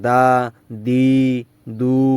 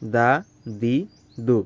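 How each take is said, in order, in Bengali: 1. প্রতিটি অক্ষর টেনে লম্বা করে বলা হয়। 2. প্রতিটি অক্ষর ছোট ও দ্রুত বলা হয়।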